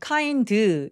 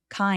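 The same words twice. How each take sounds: First: An extra vowel sound follows the final d. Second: The word ends on the bare consonant sound. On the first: The speaker calls it wrong. "모음을 으 소리를 집어 넣을 때" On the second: The speaker calls it right. "자음 하나만 가지고도 소리를 낼 수 있어야"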